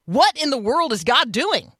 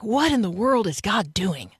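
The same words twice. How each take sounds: First: Higher, bewildered complaint; frustrated, baffled question; exasperated. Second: In awe of all that God is doing; wondering, admiring question; appreciative. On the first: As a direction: throw up your hands at a hard situation. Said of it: "be like". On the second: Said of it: "One is appreciative". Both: Shown as a demonstration.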